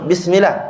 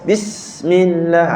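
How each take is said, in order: First: The s sound is short and quick. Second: The s sound is held with long breath. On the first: The speaker calls it wrong. "kita tak nak sebut bismillah" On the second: The speaker calls it right. "tahan dulu. Tahan sikit"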